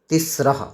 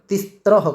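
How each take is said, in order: First: The s goes straight into the r. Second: A t sound comes before the r. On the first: The speaker calls it right. "तो इसको हम उच्चारण क्या करेंगे?" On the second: The speaker calls it wrong. "कहीं कहीं उच्चारण तिस्त्रह करते हैं, जबकि वो गलत है"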